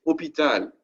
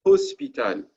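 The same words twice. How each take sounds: First: "hôpital" in French, o-pi-tal without any S; no S sound. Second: "hospital" French-style as os-pi-tal, S pronounced; S sounded. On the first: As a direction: say "hôpital" with silent H and no S. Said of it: "it means they took the letter S out". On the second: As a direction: put the old S back into "hospital", before the P. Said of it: "Used to be". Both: Shown as a demonstration.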